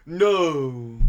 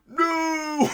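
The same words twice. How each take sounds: First: Louder but lifeless mock no; bored no. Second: High, overblown villain no; exaggerated movie no. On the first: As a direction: toss off the no like you don't care. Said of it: "he's, like, bored". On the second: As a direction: stretch the no way up like a hammy villain. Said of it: "I can't even mimic how he said no".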